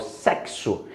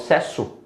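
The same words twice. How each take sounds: First: The X is said as a 'ks' sound. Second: The X is said as a single sound. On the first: The speaker calls it right. "esse X aqui tem um som de K S" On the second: The speaker calls it wrong. "eu não falo sexo"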